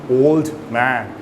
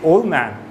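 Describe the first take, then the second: First: The D sound is clearly pronounced. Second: The D sound is dropped between the words. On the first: The speaker calls it wrong. "rather than saying old man" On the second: The speaker calls it right. "that T or D is removed"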